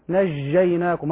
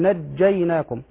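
First: The j sound is soft and continuous. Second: The j sound is fully stopped and held. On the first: The speaker calls it wrong. "بعض الناس ينطق الجيم رخوة" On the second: The speaker calls it right. "فالجيم من الحروف الشديدة، يعني ينحبس صوتها. أقول"

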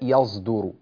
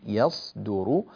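First: The s sound is voiced like a z. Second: The s sound is a clear, voiceless hiss. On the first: The speaker calls it wrong. "بحيث لا تتحول إلى يصدر" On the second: The speaker calls it right. "يصدر هكذا"

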